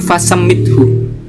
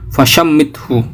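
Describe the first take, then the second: First: The word has an 's' sound after 'fa'. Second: The word has a 'sh' sound after 'fa'. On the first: "huruf shin di sini tidak pakai titik. Jadi" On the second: "Jadi dibaca shin"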